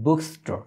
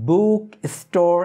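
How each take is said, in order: First: "বুকস্টোর" run together, the s joined to book; linked bookstore. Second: "বুক স্টোর" as two separate words, higher and louder; split book store. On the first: Teacher showing learners the correct linked pronunciation. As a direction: glide "বুকস্টোর" as one word. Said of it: "হয় বুকস্টোর". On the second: Teacher showing learners the pronunciation to avoid. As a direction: break "বুক স্টোর" apart, the wrong way. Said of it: "এই রূপে আ-, আসলে উচ্চারণটা হয় না". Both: Shown as a demonstration.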